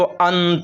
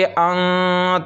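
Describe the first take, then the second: First: The n is a full tongue-tip n. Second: The n is a held nasal sound. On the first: The speaker calls it wrong. "ज़बान की नोक जो है वो हमारे तालू से जाकर मिल जाती है। इस तरह हमको नहीं पढ़ना है" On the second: The speaker calls it right. "थोड़ी देर नाक में आवाज़ को रोक कर गुन्ना के साथ हमको पढ़ना है"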